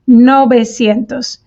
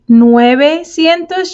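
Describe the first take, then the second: First: The first syllable is said as 'no'. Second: The first syllable is said as 'nue'. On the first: The speaker calls it right. "you say nove, novecientos" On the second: The speaker calls it wrong. "you don't say nuevecientos"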